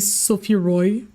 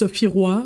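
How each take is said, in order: First: The name is said with English pronunciation. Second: The name is said with French pronunciation. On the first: The speaker calls it wrong. "but they say" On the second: The speaker calls it right. "This character's name is"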